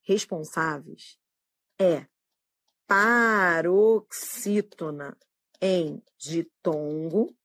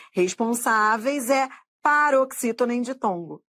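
First: Slow, word by word; slow and deliberate. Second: Said in the usual way. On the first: Shown as a demonstration. Teacher dictating the right answer to students, slowly. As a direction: spell out the rule slowly. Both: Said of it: "Você vai dizer que".

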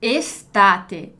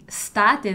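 First: Estate with a clear opening E sounded; Estate, every letter pronounced; full initial E. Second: State, the wrong S-first way; wrong dropped E. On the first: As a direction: give the E in Estate its full vowel. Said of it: "aqui tem um E mesmo". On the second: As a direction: state said without the opening E, as the mistake. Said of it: "essa pronúncia do S mudo". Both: Shown as a demonstration.

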